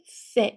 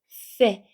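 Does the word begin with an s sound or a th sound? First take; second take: s; th. First: It begins with a plain s sound. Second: It begins with a th sound, tongue between teeth. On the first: This is the pronunciation used in Latin America. "그냥 세라고 하면은 중남미 발음이 됩니다" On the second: This is the pronunciation used in Spain. "아랫니 윗니 사이 혀를 내미고 바람 나가는 소리 세 이렇게 하면은 스페인 본토 발음"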